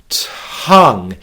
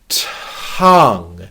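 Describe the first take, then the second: First: The word is said as one syllable. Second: The word is said as one syllable.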